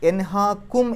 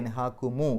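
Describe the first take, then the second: First: The word ends in a bare m sound. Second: The word ends with an added u vowel. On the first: This is the form before joining the words. "മീമിന് സുക്കൂനാണ് അവസാനത്തിൽ" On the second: This is the form used in recitation. "എൻഹാക്കുമു എന്നാക്കി"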